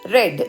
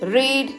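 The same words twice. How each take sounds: First: It has a short vowel, sounding like 'red'. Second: It has a long vowel, sounding like 'reed'. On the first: It is the past tense. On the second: It is the present tense.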